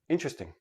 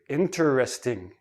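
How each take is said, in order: First: The syllables run together into three. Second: Each syllable is said separately and clearly. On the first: It is ordinary everyday speech. "in everyday speech" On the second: The speaker wants to emphasize the word. "they enunciate each syllable. They say each syllable separately"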